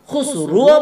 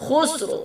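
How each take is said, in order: First: খুসরুও with a full u after the ra, the wrong way; wrong vowel. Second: খুসরো with a light ra and a short o ending; correct reading. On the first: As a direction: say খুসরুও with a rounded u ending, as a mistake. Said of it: "খুসরুও বলতে পারবেন না". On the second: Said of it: "কি বলতে হবে?". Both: Shown as a demonstration.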